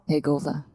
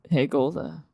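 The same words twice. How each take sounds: First: It is said softly and quietly. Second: It is said in a low, deep register.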